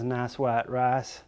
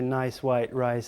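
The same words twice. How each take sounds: First: The vowels are long and drawn out. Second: The vowels are said short and plain.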